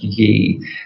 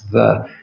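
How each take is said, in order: First: The word begins with a 'y' sound. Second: The word begins with a 'th' sound. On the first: The speaker calls it wrong. "It's not pronounced ye" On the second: The speaker calls it right. "Y E is actually pronounced the"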